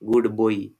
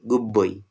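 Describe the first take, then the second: First: The word 'good' ends in a d sound. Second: The word 'good' ends in a b sound. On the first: "Actual pronunciation is this one" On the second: "in connected speech, we say"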